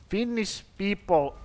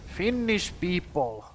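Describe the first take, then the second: No difference in how they are said.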